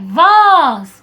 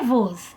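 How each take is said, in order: First: The word is said higher and with force. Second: The word is said lower and without force. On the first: The speaker calls it right. "é voz. Olha só, ele sobe" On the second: The speaker calls it wrong. "voz não é voz"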